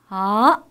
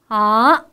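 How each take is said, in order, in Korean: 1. 중간 높이에서 높은 높이로 올라가요. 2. 중간 높이에서 높은 높이로 올라가요.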